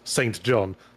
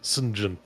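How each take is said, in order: First: The name is read out as it is spelled. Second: The name is said in a shortened form. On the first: "it's spelt Saint John" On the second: "but it's pronounced Saint John"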